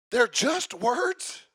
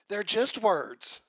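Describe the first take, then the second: First: "They're just words?" slow, rising at the end; questioning challenge. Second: Said in the usual way. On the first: Acted. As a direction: throw "just words" back as a drawn-out question. Preacher questions the objection back.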